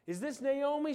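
It sounds excited and happy.

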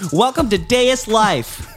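The voice is peppy, bright and salesman-like. "I have a new voice I want to do"

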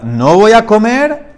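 It is said as a rising question.

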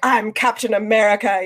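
It is said grandly, like a heroic announcement.

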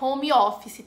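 It is said with a Brazilian Portuguese accent. The speaker calls it wrong. "Não é home office, tá, gente? Que nem a gente fala por aqui"

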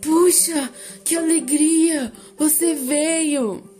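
The line is delivered in a frightened, startled tone. "depois assustado"

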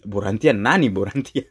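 It is said Japanese-style with b and r.

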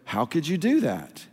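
It sounds like a curious, genuine open question. The speaker honestly wants to know the reason. The speaker calls it right. "Turn it into a question and go"

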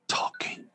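It is whispered.

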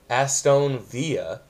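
It is said with a Spanish-style pronunciation.

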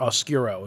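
It is said with an American English pronunciation.

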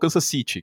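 It is said with a British accent.

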